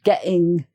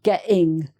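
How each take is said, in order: No difference in how they are said.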